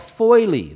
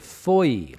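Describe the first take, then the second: First: The word ends with an added 'lee' sound. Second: The word is one syllable rhyming with joy. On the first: The speaker calls it wrong. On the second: The speaker calls it right.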